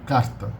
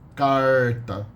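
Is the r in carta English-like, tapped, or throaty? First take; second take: tapped; English-like. First: The r is a single quick tongue tap. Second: The r sounds like an American English r. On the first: This is the standard São Paulo pronunciation. "Only a single tap of the tongue" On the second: This is the rural caipira pronunciation. "a pronunciation very similar to uh, the American English R"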